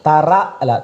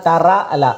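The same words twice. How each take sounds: The two takes are said the same way.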